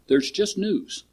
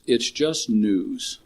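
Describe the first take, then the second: First: High, soft serene sage; calm master line. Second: Drawn-out weight on "just"; slow emphatic repeat. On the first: Retold or imitated. Retelling the turtle master calming the chicken, serene. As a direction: voice the master lightly, higher. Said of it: "Son, there's no terrible news". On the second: Shown as a demonstration. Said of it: "Fun to laugh".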